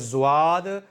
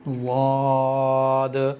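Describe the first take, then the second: First: It begins with a z-like buzzing sound. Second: It begins with a single heavy consonant. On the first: The speaker calls it wrong. "ये दोनों ही गलत हैं" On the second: The speaker calls it right. "यह है इसकी सही अदायगी"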